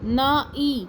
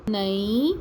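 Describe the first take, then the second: First: نائی with a long آ, pitched higher and falling; long vowel. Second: نئی said short and quick, no long آ; short vowel. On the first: Teacher to pupils, contrasting نائی with نئی. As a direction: stretch the آ in نائی, then let it drop. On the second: Teacher to pupils, contrasting نئی with نائی. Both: Shown as a demonstration. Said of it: "اب اگلے الفاظ بھی پڑھتے ہیں".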